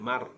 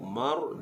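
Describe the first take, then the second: First: The r sound is light and thin. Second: The r sound is heavy and thick. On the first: The speaker calls it wrong. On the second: The speaker calls it right. "ditebalkan ra"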